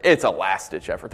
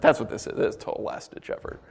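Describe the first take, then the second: First: Said in the usual way. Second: Soft unvoiced whisper of the point; whispered aside. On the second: Real, not acted. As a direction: lean in and whisper it. Repeats point dropping to whisper.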